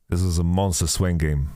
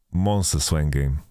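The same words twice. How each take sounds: First: Said in the usual way. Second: 'Monster Swain game' slower, 'Monster' leaned on; slow emphatic repeat. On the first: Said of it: "repeats for emphasis". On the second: Shown as a demonstration. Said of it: "slower repeat for emphasis".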